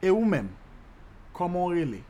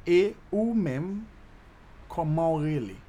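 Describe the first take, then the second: First: Said in the usual way. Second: "Et ou même, comment rele?" slowed down, each word stretched; slow teaching demo. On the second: Shown as a demonstration. Teacher repeating the Creole question for learners, "Et ou même, comment rele?" slowly.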